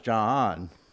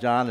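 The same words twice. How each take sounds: First: The name is drawn out into two syllables. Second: The name is said as one short syllable. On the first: "we always add syllables to people's names" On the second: "it's not John"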